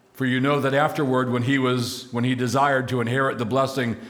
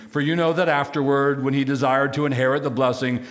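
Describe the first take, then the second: No difference in how they are said.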